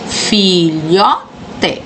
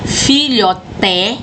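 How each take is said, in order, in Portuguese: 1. A sílaba tônica é a penúltima. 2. A sílaba tônica é a última. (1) "É o lhó" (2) "eu não falo filhoté"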